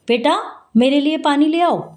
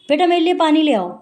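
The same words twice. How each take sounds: First: There is a short pause after 'beta'. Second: It is said in one go without pausing. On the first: "तो हमने वहां लगा दिया अल्प विराम" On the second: "एकदम बोलेंगे"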